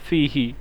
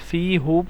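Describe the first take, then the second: First: The pronoun ends with an 'i' vowel. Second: The pronoun ends with an 'u' vowel. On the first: The speaker calls it right. "इसलिए फ़ी ही" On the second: The speaker calls it wrong. "पढ़ना ज़रा मुश्किल लगता है"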